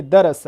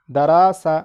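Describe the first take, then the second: First: Said in the usual way. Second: दरासा with long drawn aa vowels; wrongly lengthened vowels. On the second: Shown as a demonstration. Teacher showing how not to read harakat, दरासा stretched long. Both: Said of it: "ऐसा पढ़ोगे तो गलती हो जाएगा".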